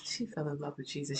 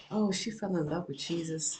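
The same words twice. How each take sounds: First: Dropped to a softer, tender echo; softer repeat. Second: Said in the usual way. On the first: Real, not acted. Mother recalling daughter's faith, softer repeat. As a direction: say it again, softly to yourself.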